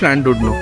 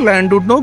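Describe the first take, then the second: First: The name starts with a hissy shr-like sound. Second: The name starts with a plain L sound.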